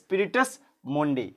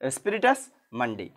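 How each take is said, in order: First: The second word begins with an 'o' vowel. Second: The second word begins with an 'a' vowel. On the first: "এটা হবে স্পিরিটাস মন্ডি" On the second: "অথবা কেউ উচ্চারণ করবে মান্ডি"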